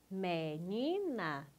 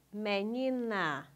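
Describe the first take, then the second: First: "Menina" drawn out slowly in three separate syllables. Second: Said in the usual way. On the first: Shown as a demonstration. Teacher confirming the pupil's split, syllable by syllable. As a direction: stretch each syllable of "Menina", rising on the middle one. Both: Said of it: "separe as sílabas".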